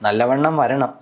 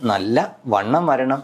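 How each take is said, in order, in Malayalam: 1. Nallavannam ഒറ്റ വാക്കായി സുഗമമായി ചൊല്ലുന്നു. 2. ചെറിയ ഇടവേള 'nalla'യെയും 'vannam'ത്തെയും വേർതിരിക്കുന്നു. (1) "നല്ലവണ്ണം വരണം എന്ന് പറയുന്നതിന് പകരം" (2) "ആ സെന്റൻസ് ഞാൻ പറഞ്ഞപ്പോൾ ഉണ്ടായ ആ ചേഞ്ച്"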